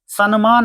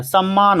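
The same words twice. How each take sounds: First: सम्मान said as "sanmaan" with a clear n before m; the mistaken form, sanmaan; wrong pronunciation. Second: सम्मान said as "sammaan" with a held double m; the teacher's correct form, sammaan; correct pronunciation. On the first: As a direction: pronounce सम्मान with an n sound, not a double m. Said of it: "सम्मान नहीं होता है". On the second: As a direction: pronounce सम्मान with a long doubled m. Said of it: "सम्मान होता है". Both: Shown as a demonstration.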